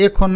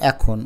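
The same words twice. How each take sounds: First: এখন as 'e-khon'; spelling pronunciation. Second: এখন as 'ae-khon'; natural pronunciation. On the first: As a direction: read এখন with close, pure এ. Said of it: "এখন না লিখে". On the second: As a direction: say এখন with open অ্যা. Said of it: "বলবা এখন". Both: Shown as a demonstration.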